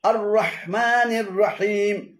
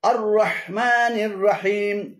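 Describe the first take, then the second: The two takes are said the same way.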